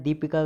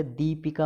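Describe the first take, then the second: First: दीपिका opening on short "di"; wrong short i. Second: दीपिका opening on long "dee". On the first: Teacher showing the error, short-di दीपिका. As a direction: clip the first vowel of दीपिका. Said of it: "गलत है". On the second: Teacher correcting students, long-dee दीपिका. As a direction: hold the first vowel of दीपिका. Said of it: "होता है". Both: Shown as a demonstration.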